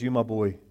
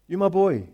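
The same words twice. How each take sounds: First: Low, soft loving words; quiet fatherly reassurance; tender father. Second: Said in the usual way. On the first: Acted. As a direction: say it gently to your son.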